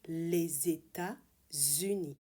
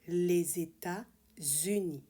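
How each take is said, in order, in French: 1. Les mots sont liés avec deux sons z. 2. Les mots sont liés avec deux sons z.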